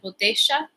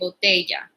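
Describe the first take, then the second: First: It is said with an Argentine accent. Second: It is said with standard Spanish pronunciation.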